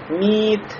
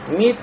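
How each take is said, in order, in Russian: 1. Гласная протянута долго. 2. Гласная краткая, не удлинённая. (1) "то есть не говорим мит" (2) "при этом не придаем долготу"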